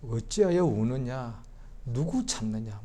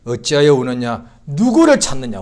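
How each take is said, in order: First: Soft slow voice of Jesus. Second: Louder voice of Jesus. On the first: Jesus' question repeated softly. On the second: Jesus' question repeated. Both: Acted.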